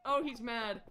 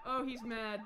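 The two takes are said the same way.

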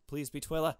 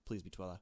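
First: Louder, higher hopeful plea; begging the game to show Twila; eager plea. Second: Said in the usual way. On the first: Real, not acted. Player pleading the game to show Twila, louder and higher.

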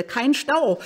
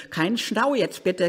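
First: "kein Stau" higher and louder, pleading; urgent plea. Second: Said in the usual way. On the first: Real, not acted. Late driver begging the traffic, louder.

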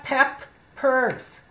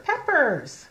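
First: Peppers broken slowly into pep and pers; sounding out. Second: Said in the usual way. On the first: Shown as a demonstration. Teacher covering one P, Peppers sounded out in two parts. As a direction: say Peppers as two separate chunks.

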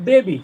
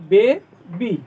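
First: Said in the usual way. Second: baby broken into bay, bee; syllable by syllable. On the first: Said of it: "তো আমি যদি এখানে বলি". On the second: Shown as a demonstration. Teacher showing pupils the pronunciation, baby split into two syllables. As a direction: say baby as two separate beats with a gap. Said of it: "উচ্চারণে কীরকম হলো?".

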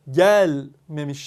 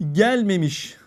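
First: "gelmemiş" again with weight on gel, before the -me suffix; stress on GEL. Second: "Gelmemiş" with the first syllable GEL punched, the rest falling away; teacher hits GEL in "Gelmemiş" before the negative suffix; stress on GEL. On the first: Teacher repeating the example for students: stress on gel. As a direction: press the syllable gel in "gelmemiş". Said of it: "Yani vurgu burada gelmemiş şeklinde". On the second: Teacher showing students: stress on GEL in "Gelmemiş". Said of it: "işte örneği bakın". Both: Shown as a demonstration.

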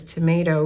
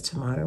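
First: "tomato" said the American way, with "may" like the word may. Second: "tomato" said the Australian way, with a broad "mah" in the middle. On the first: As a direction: say "tomato" rhyming with potato. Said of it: "he kinda goes back and forth". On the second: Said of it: "when he's talking to me". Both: Retold or imitated.

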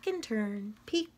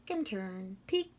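Both takes have the same delivery.

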